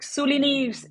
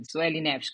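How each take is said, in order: First: High mock "Suli Neves" as SOO-lee NEEVZ; mispronounced full name. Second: "Sueli Neves" as sweh-lee NEVSH; correct pronunciation. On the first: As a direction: say "Suli Neves" wrongly, pitched way up. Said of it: "people would pronounce it Neves". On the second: Retold or imitated. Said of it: "I would correct people all the time".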